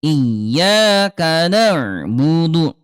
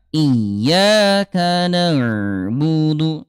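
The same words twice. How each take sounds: First: "Iyyaka na'budu" slow with a jolted ain; slow Quranic chant, hard ain. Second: "iyyaka na'budu" slow with a gently flowing ain. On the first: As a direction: recite "na'budu" slowly, stopping hard on the ain. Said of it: "yang pertama". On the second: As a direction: recite "na'budu" slowly, letting the ain flow. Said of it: "Yang kedua". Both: Shown as a demonstration.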